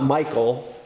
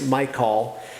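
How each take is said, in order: First: It is said like the common name Michael. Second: It is said unlike the common name Michael. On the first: The speaker calls it wrong. "it's not Michael" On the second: The speaker calls it right. "it's Michal"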